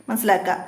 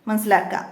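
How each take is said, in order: No difference in how they are said.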